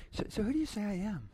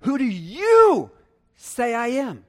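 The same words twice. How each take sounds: First: Quick, much softer, casual "So, so who do you say I am"; throwaway version of the question; offhand quiet take. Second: Slow, "you" loud and high; demonstrating emphasis on "you"; stress on YOU. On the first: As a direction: toss it off lightly and quietly. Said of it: "He was like, was it just". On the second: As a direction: lean hard on "you" in "Who do you say I am". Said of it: "Where was the emphasis". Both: Shown as a demonstration.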